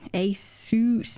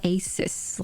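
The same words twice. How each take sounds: First: It does not end like the word 'sus'. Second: It ends like the word 'sus'. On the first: The speaker calls it right. "Asus, not Asus" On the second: The speaker calls it wrong. "not Asus, like what I used to say"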